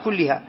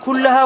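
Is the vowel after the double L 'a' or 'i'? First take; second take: i; a. First: The vowel after the double L is 'i'. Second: The vowel after the double L is 'a'. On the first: The word is in the genitive case. "لأنه هنا مجرور بآياتنا فقال كلها" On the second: The word is in the accusative case. "هناك قال كلها"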